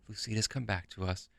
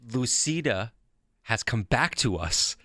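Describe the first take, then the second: First: It is said in a flat, somber way. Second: It is said with a little excitement.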